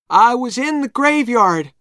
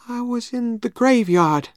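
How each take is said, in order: First: It is spoken loudly. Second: It is spoken quietly. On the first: The speaker answers clearly for everyone to hear. "said Tom loudly" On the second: The speaker is frightened. "said Tom quietly"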